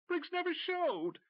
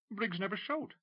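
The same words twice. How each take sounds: First: Very high, slow, louder near-hysterical cry; almost lose control, voice cracking high; nearly hysterical. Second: Nervous McCracken. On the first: McCracken repeating to Tim, nearly hysterical. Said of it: "his voice nearly hysterical". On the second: Nervous McCracken answering Tim. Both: Acted.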